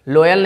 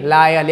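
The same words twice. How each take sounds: First: लॉयल said with a round O, "LO-yal"; wrong pronunciation. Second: लायल said with open "aa", "LAA-yal"; firm model of लायल with "laa"; corrected pronunciation. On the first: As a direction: mistaken O reading of लॉयल. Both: Shown as a demonstration. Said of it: "लॉयल नहीं".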